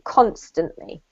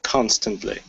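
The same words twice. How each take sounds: First: Constantly said CONstantly, falling low; CONstantly, weight on the first syllable; stress on first syllable. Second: Constantly said CONstantly, falling; student echoes Constantly as CONstantly; stress on first syllable. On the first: Teacher repeats constantly for the student, first syllable stressed. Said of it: "emphasis on the first syllable". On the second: Student copies the teacher's stress on Constantly. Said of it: "Yep, that's great". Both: Shown as a demonstration.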